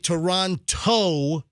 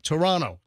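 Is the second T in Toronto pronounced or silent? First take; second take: pronounced; silent. First: The second T is clearly pronounced. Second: The second T is silent. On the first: The speaker calls it wrong. "you're not supposed to say Toronto" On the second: The speaker calls it right. "It's like Toronto"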